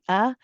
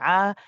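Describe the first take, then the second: First: It starts with a sharp glottal stop. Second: It starts with a squeeze in the throat. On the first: The speaker calls it wrong. "we don't say ah. Don't pronounce this as a hamza" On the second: The speaker calls it right. "This is from the middle of the throat. We say ah. There's a slight squeeze"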